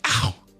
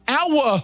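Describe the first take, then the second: First: The cry sounds like a reflexive natural noise. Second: The cry sounds deliberate and hammed up. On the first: It is a genuine reaction to pain. The speaker calls it right. "it's more of a natural noise you make" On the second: It is a put-on reaction. The speaker calls it wrong. "you know what I don't say?"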